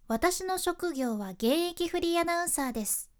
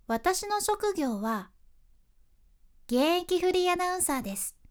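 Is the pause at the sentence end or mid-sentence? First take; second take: sentence end; mid-sentence. First: The pause comes after the whole sentence ends. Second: The pause comes in the middle of the sentence. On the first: The listener understands the point and nods. "現役フリーアナウンサーです丸のその文章の最後の丸の後で間を取ると" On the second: The listener looks up, curious about what comes next. "その文章の途中の点で間を取るときはさ"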